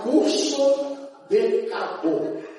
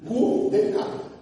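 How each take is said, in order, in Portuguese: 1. A primeira palavra é dita por inteiro, com cuidado. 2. A primeira palavra fica encurtada na fala rápida. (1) "Eu quero falar curso de cabo" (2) "quando eu falava rápido"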